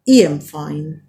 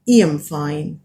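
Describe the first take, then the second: First: The word 'I' sounds like 'ee'. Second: The same.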